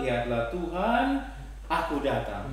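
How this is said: There is a breath pause after Tuhan. The speaker calls it right. "sehingga aku datang boleh dapat tekanan yang bagus"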